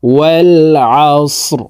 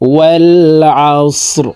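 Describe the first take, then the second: Both takes have the same delivery.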